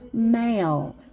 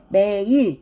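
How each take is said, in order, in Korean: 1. 모음이 길게 미끄러지는 하나의 소리예요. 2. 모음이 두 음절로 나뉘어요. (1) "장모음을 정확히 해주셔야 돼요" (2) "얘는 매일 이렇게 하면 안 되고요 ... 매일 하면 A 발음이 안 나잖아요"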